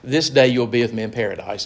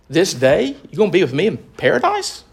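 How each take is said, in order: First: It is said as a statement, falling. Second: It is asked as a question, rising.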